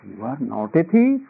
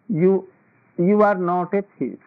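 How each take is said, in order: First: It is said in a sarcastic, ironic tune. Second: It is said in a plain, sincere tune. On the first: The listener is in fact a thief. "You are a thief" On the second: The listener is really not a thief. "This means that you are not a thief"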